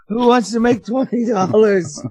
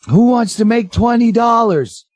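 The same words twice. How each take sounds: First: The phrase is said at normal volume. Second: The phrase is shouted loudly. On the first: "Not like that"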